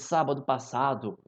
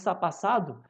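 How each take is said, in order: First: Every syllable of the words is said fully. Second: The words are clipped and run together.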